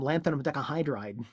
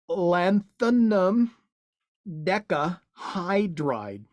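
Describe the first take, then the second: First: The term is said casually and smoothly. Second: The term is said stiffly and with effort. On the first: The speaker calls it right. "say it in a conversational way" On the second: The speaker calls it wrong. "instead of"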